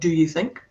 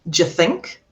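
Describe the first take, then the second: First: Do you is said as two full words. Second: Do you merges into a j sound. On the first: The speaker calls it wrong. "not do you think" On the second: The speaker calls it right. "the sound changes instead of do you to a j, which has another schwa"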